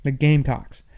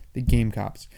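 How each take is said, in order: First: "Gamecocks" said firmly and louder, ending in k-s; corrected Gamecocks. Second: "Gamecocks" slipping into "game-cops"; slurred Gamecocks. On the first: Host fixing a slip from talking fast, "Gamecocks" pronounced clearly with k-s. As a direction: land the k-s in "Gamecocks" with emphasis. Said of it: "I mean to say Gamecocks". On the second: Host stumbling on the team's name, mispronounced "Gamecocks" as "game-cops". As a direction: end "Gamecocks" on a p-s sound, like "cops". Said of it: "I keep calling them Gamecocks". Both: Real, not acted.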